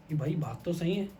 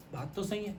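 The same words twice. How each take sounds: First: Said in the usual way. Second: Much softer echo of بات تو صحیح ہے; quiet realization. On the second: Acted. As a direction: murmur it to yourself, struck by the truth. King repeats his realization.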